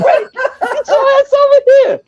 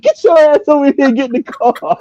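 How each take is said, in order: First: Much higher, mock yell across the lot; mock holler across the parking lot, laughing; yelling for Brett. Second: Calling out. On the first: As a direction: friend in car yelling at drunk buddy, mock holler. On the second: Retold or imitated. Calling Brett from the car.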